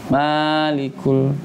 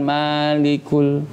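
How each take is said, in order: Both takes have the same delivery.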